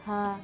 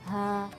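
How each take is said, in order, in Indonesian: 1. Bunyinya tipis dan ringan, seperti ha. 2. Bunyinya tipis dan ringan, seperti ha.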